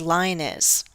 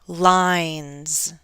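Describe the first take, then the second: First: The plural ending adds an extra syllable. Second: The plural ending adds no extra syllable. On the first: The speaker calls it wrong. "Do not say ... line is" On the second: The speaker calls it right. "Do not add that syllable"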